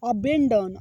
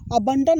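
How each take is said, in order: First: The second syllable has an 'eh' vowel. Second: The second syllable has an 'uh' vowel. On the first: The speaker calls it right. "इसको पढ़ेंगे अबेंडन" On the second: The speaker calls it wrong. "अबंडन नहीं"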